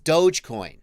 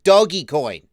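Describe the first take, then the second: First: The first part sounds like 'dohj'. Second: The first part sounds like 'doggy'. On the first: The speaker calls it right. "It's Dogecoin" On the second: The speaker calls it wrong. "It's not Doggy Coin"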